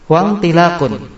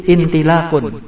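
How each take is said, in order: First: Slow Wantilakun, opening on a joined WAN; hamzah wasal dropped. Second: Intilakun starting on a clear glottal I; hamzah pronounced. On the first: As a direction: glide from wawu straight into N in Wantilakun. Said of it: "Kalau kasih wawu". (Wantilakun pelan, hamzahnya lebur setelah wawu) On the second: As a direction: begin intilakun with a sounded IN, no wawu. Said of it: "kalau wawunya dibuang menjadi". (intilakun, awalnya dibaca jelas dengan bunyi i) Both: Shown as a demonstration.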